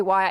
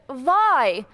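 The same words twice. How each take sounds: First: Said in the usual way. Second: "Why" with a V in place of the W, like "vai"; Iranian-accented WHY. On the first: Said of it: "Iranians can't say". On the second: Retold or imitated. Daughter mimicking her mom saying the letter Y, "Why" as "vai". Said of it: "Iranians can't say why".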